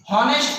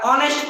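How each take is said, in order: First: "हॉनेस्ट" with an audible H at the start; H sounded. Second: "ऑनेस्ट" beginning straight on the vowel; H silent. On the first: Teacher offering students two readings, "हॉनेस्ट" with H sounded. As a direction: pronounce the H in "हॉनेस्ट". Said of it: "हॉनेस्ट पढ़ते हैं या ऑनेस्ट". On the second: Teacher offering students the second reading, "ऑनेस्ट" without H. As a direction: drop the H from "ऑनेस्ट". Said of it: "या ऑनेस्ट पढ़ते हैं". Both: Shown as a demonstration.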